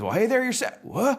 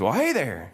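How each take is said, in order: First: Very high folksy truck returning hello; startled greeting. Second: Higher-pitched folksy truck hello; friendly greeting. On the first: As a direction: greet back, then yelp in surprise. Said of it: "our Mater says". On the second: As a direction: greet a stranger in character, pitched up. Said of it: "this Mater says". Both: Acted.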